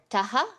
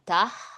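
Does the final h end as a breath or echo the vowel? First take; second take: echo; breath. First: The final h is followed by an echoed vowel. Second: The final h is a soft trailing breath. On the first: "the echoing of the preceding vowel, the taha" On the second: "just uh, trailing breath"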